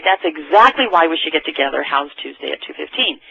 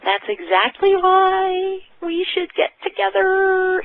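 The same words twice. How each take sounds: First: Steady, sure delivery of the line; said with confidence. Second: High, slow and timid, voice up in the air; shy and unsure. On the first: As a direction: say it like you mean it. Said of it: "You say it with confidence". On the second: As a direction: say it like you doubt yourself. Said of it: "you cannot say it like this". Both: Shown as a demonstration.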